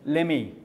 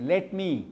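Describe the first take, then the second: First: The two words are run together into one. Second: The two words are said separately and fully. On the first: It suits only informal speech. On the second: It suits formal speech.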